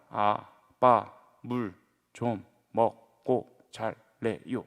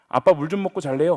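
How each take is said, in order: First: It is said slowly and hesitantly, syllable by syllable. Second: It is said smoothly at a normal pace. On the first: "굉장히 베베 꼬는 말투로 천천히 한 글자씩" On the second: "뭐 이렇게 이야기하는 것이 아니라"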